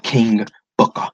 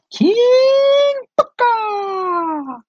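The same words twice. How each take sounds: First: Said in the usual way. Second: Put-on high, very drawn-out British royal accent; mock British accent, slow regal proclamation; King Booker. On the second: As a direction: stretch it out long and high like a pompous British king. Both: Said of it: "He had an accent like he was a king".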